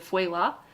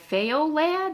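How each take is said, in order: First: The word is not pronounced the way it looks. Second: The word is pronounced the way it looks. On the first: The speaker calls it right. "It's not pronounced like it's spelled" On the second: The speaker calls it wrong. "most people are like Feo lad, and I'm like, no, not close"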